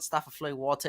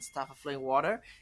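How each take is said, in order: First: It is said in a British accent. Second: It is said in an American accent.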